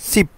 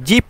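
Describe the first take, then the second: First: The word begins with an s sound. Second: The word begins with a j sound. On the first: The speaker calls it right. "এটা সঠিক উচ্চারণ সিপ" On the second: The speaker calls it wrong. "জিপ বলে অনেকেই"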